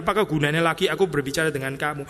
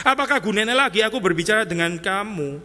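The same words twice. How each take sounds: First: Said in the usual way. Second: Reading the verse as exasperated Jesus. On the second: Shown as a demonstration. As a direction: say "Apakah gunanya" like you've given up. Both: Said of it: "saya kesulitan saya dengan terjemahan ini".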